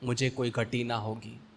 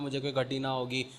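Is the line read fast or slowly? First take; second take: slow; fast. First: It is read slowly, with a pause afterward. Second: It is read quickly, rushing on without stopping. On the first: The reader reflects on what the words mean. The speaker calls it right. "रुको, सोचो" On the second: The reader is not thinking about the words. The speaker calls it wrong. "ऐसे नहीं पढ़ना है जैसे मैंने line से बोला"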